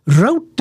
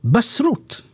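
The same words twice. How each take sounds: First: Route said like rout, rhyming with out, drawn out; American route. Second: Route said like root, rhyming with boot; British route. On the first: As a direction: say route as rowt. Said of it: "Route is what they say". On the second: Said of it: "We say". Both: Shown as a demonstration.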